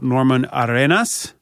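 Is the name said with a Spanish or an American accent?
Spanish. It is said with a Spanish accent.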